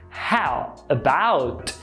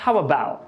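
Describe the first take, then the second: First: The final T of about is clearly pronounced. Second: The final T of about is dropped. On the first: "Quase ninguém fala assim" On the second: "apagando esse T"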